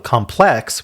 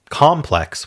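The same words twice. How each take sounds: First: The stress is on the second syllable. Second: The stress is on the first syllable. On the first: It means complicated or difficult. "with the emphasis on plex" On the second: It means a large building with many divisions. "with the emphasis on the com"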